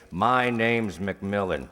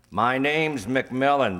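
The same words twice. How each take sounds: First: Said in the usual way. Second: Slow and louder, each word pressed; "My name's McMillan" slow, deliberate and loud; stress on "My name's McMillan". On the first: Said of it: "put out his hand and say". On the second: Shown as a demonstration. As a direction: spell it out slowly and firmly. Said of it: "That's all he has to".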